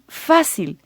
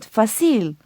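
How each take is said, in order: First: The stress is on the first syllable. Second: The stress is on the last syllable. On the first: The speaker calls it right. "pronounced correctly, the word should be fácil" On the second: The speaker calls it wrong. "not fácil"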